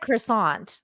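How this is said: It is said with an American pronunciation. The speaker calls it wrong.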